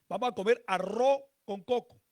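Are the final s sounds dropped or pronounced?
dropped. The final s sounds are dropped or weakened. This is how Caribbean coastal speakers say it. "ellos omiten la S al final"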